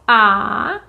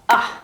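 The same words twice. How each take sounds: First: The vowel is held noticeably longer. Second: The vowel is short and clipped. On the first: "the long vowels are the same thing, except they are just a little bit longer" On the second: "These are our short vowels"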